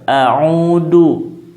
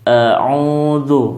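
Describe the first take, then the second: First: The middle consonant is a plain 'd' sound. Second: The middle consonant is a soft 'dh' sound. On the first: The speaker calls it wrong. "tidak menjadi huruf dal" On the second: The speaker calls it right. "sesuai dengan tulisannya"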